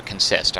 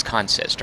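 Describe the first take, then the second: First: "consist" stressed on the second syllable, con-SIST; verb-style "consist", end-stressed as con-SIST. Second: "consist" stressed on the first syllable, CON-sist; noun-style "consist", front-stressed as CON-sist. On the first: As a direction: say "consist" as kun-SIST, with a weak first vowel. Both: Shown as a demonstration. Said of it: "I don't know how you say it".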